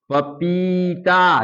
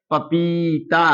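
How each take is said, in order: First: Each syllable stretched, falling at the end; slow blended reading. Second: Said in the usual way. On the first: Shown as a demonstration. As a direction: read it slowly for the children. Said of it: "अब ये तीनों अक्षर मिलाकर क्या पढ़ेंगे". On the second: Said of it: "क्या पढ़ेंगे".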